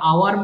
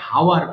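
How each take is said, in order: First: The word starts directly with a vowel. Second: The word starts with an h sound. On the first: The speaker calls it right. "আওয়ার মানে যে ঘন্টা" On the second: The speaker calls it wrong. "ওটাও ভুল করে আবার অনেকে হাওয়ার বলে ফেলে"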